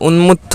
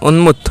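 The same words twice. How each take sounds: No difference in how they are said.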